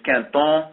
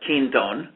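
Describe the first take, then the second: First: The name is said with a French pronunciation. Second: The name is said with an American pronunciation. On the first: "the real French pronunciation is" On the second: "in America, I'd say most of us call it"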